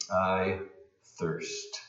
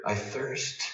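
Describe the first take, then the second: First: Breathy, nearly voiceless I thirst; near-whisper, dry throat. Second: Almost whisper. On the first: Preacher voicing Jesus, a parched near-whisper. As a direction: let thirst fade to a breath. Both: Shown as a demonstration. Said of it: "almost whisper".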